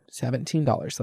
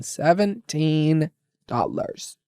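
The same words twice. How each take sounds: First: Said in the usual way. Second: Seventeen dollars dragged out slowly, each word weighed; slow, disbelieving stress on Seventeen dollars; slow emphatic repeat. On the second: Shown as a demonstration. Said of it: "Let me just say that again".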